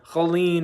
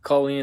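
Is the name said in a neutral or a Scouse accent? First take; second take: Scouse; neutral. First: The name is said in a Scouse accent. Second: The name is said in a neutral accent.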